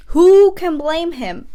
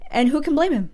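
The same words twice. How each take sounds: First: WHO hit loud and high, drawn out slowly; emphatic repeat. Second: Said in the usual way. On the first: Real, not acted. Vlogger insisting to viewers, stress on "Who". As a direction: lean hard on "Who" and stretch the line.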